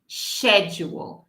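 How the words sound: It begins with an sh sound. "a versão britânico pura seria schedule, sh"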